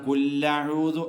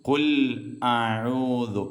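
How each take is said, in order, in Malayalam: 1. രണ്ട് വാക്കുകളും ഒന്നിച്ചു ചേർന്നാണ്, ഇരട്ട l ഉണ്ട്. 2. രണ്ട് വാക്കുകളും ഒരു ഗ്ലോട്ടൽ ക്യാച്ച് കൊണ്ട് വേർതിരിഞ്ഞിരിക്കുന്നു. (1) "കുല്ലഊദു അല്ല" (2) "മറിച്ച് കുൽ അഊദു"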